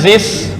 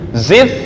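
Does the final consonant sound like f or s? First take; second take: s; f. First: The word ends with an s-like sound. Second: The word ends with an f sound. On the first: The speaker calls it wrong. "bukan zis" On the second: The speaker calls it right.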